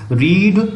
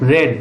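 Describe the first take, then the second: First: The vowel is a long ee sound. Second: The vowel is a short e sound. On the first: It is the present tense form. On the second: It is the past tense form. "Spelling वही रहती है लेकिन पढ़ते हैं रेड"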